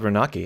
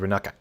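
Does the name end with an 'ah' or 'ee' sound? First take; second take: ee; ah. First: The name ends with an 'ee' sound. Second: The name ends with an 'ah' sound. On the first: The speaker calls it wrong. "it's not called Renaki" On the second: The speaker calls it right. "it's called Renaka"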